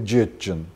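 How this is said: The word starts with a j sound. This is the Iron dialect form. "иронское"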